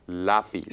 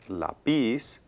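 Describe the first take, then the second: First: The stress is on the first syllable. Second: The stress is on the last syllable. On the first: The speaker calls it right. "we want stress in that second to the last syllable" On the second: The speaker calls it wrong. "it's not lápiz"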